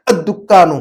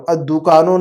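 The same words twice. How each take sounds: First: الدکانو with a firm held double k; Arabic doubled kaf. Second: الدکانو with a long oo and single k, no doubling; wrong single kaf. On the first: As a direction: hit the double k in الدکانو, short u before it. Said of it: "عربی میں الدکانو". (الدکانو، عربی میں کاف پر شدہ) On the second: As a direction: say الدکانو loosely, like Urdu dookaan. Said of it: "الدکانو نہیں بولنا ہے". (الدکانو، بغیر شدہ کے) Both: Shown as a demonstration.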